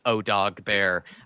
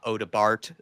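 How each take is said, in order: First: The name ends without a t sound. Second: The name ends with a sounded t. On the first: The speaker calls it right. "it's O Dog Bear" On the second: The speaker calls it wrong. "it's not Oda Bart"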